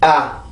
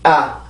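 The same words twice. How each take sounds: First: The vowel is soft, low and relaxed. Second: The same.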